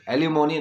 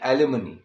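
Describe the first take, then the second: First: The third syllable has a full 'mo' vowel. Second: The third syllable has a reduced 'muh' vowel. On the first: The speaker calls it wrong. "एलिमोनी नहीं" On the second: The speaker calls it right.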